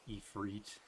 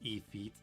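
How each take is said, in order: First: An R sound follows the F. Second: No R sound follows the F. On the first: The speaker calls it wrong. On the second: The speaker calls it right.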